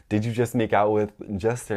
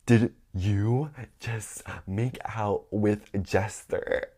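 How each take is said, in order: First: Said in the usual way. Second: Word-by-word confrontation, drawn out; slow, halting, stunned interrogation; slow accusing question. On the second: Retold or imitated. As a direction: space out each word as you accuse. First, dramatic take of confrontation.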